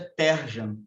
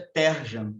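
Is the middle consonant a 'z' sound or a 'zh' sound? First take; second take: zh; zh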